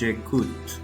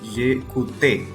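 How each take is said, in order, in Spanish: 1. La e final no se pronuncia en absoluto. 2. La e final se pronuncia como vocal. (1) "sino que decimos j'écoute, porque no se menciona la e" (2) "no decimos"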